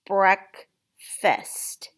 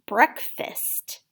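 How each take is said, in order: First: Breakfast as two separate beats, break, fast; split into syllables. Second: Said in the usual way. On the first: Shown as a demonstration. Teacher helping tap it out, Breakfast split into syllables. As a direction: say Breakfast slowly with a clear gap after the first syllable. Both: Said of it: "help you tap that out".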